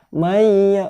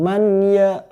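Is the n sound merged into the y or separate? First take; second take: merged; separate. First: The n merges into the following y sound. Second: The n is pronounced separately before the y. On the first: The speaker calls it right. "meleburkan atau memasukkan nun mati masuk ke dalam ya" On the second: The speaker calls it wrong.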